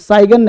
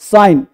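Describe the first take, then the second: First: A g sound is heard before the n. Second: No g sound is heard before the n. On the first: The speaker calls it wrong. "जी से मतलब नहीं, साइगन नहीं" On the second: The speaker calls it right. "N से पहले जी silent रहता है"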